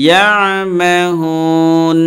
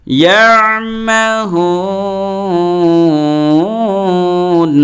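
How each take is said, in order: First: ইয়ামাহুন with only a short hold on the vowel; one-alif stretch. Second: ইয়ামাহুন with the last vowel held very long and chanted; long drawn madd on ইয়ামাহুন; three-alif stretch. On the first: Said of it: "এরকম পড়লেও জায়েজ". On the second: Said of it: "তিন আলিফ টান দিছি". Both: Shown as a demonstration.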